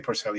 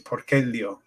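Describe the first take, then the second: First: The c is sounded soft, like s. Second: The c is sounded hard, like k. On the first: The speaker calls it wrong. "you'd never say" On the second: The speaker calls it right. "a C in classical Latin, it's a hard C"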